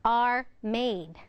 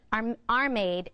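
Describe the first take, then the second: First: "are", small gap, "made"; two distinct words, "are" and "made". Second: "are made" run together as one word; no gap between "are" and "made"; slurred words. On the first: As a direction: separate "are" from "made" cleanly. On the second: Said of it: "Or instead of". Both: Shown as a demonstration.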